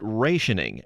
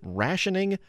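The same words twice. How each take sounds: First: The first vowel is a long A. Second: The first vowel is a short A.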